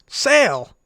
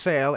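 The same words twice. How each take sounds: First: It is said loudly, with excitement. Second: It is said flatly, without excitement.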